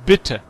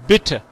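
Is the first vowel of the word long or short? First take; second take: short; short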